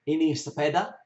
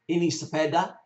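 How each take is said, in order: Both takes have the same delivery.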